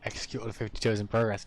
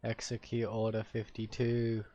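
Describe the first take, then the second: First: Quick run through "Execute Order fifty-two"; brisk status report. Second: Slow, drawn-out "Execute Order fifty-two"; mock solemn command. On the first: Pretend. Player reporting the order under way, brisk. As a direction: rattle off the update briskly. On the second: Player giving a mock order, slow and deliberate.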